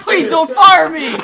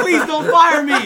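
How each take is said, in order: First: Loud, high, drawn-out laughing plea; slower pleading repeat. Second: Loud, high laughing plea; panicky plea. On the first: Repeating the plea to the actress, slower, loud and laughing. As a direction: stretch the plea out the second time. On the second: Retold plea to the actress not to be fired, loud and laughing. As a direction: beg through the laughter. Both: Retold or imitated.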